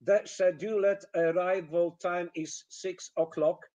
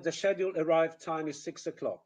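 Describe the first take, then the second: First: "The scheduled arrival time is six o'clock" with every syllable full; stilted, evenly stressed "six o'clock"; machine-gun Polish rhythm. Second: "the scheduled arrive time is six o'clock" linked, weak syllables reduced; flowing "the scheduled arrive time is six o'clock"; natural English rhythm. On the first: Retold or imitated. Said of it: "this is exactly the rhythm". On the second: Shown as a demonstration. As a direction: squeeze "is" and the "o" of "o'clock". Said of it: "instead of".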